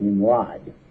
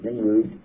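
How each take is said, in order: First: The last syllable sounds like 'rod'. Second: The last syllable sounds like 'rood'. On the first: This is the modern English form of the name. The speaker calls it wrong. "they pronounce it Nimrod, because of modern English" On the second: This is the original Semitic form of the name. The speaker calls it right. "there should have been two O's, because his name is Nimrud"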